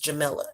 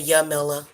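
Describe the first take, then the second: First: The name begins with a J sound. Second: The name begins with a Y sound. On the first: "everybody always pronounces the J, and that's fine with me. So do I" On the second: "the technical pronunciation is supposed to be Yamila"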